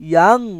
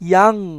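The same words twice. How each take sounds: No difference in how they are said.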